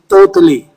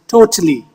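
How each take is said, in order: First: The t sounds heavy, like Arabic 'ta'. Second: The t sounds like a plain light t. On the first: "they say ta. So they will say totally" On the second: "T, not ta"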